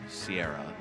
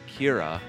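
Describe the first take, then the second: First: It starts with an S sound, three syllables. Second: It starts with a K sound, two syllables. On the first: This is how some non-Irish people say it. The speaker calls it wrong. "Or Sierra. As some people would say" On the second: This is how Irish people say it. The speaker calls it right. "the correct pronunciation, as lots of people from Ireland pointed out, it is Kira"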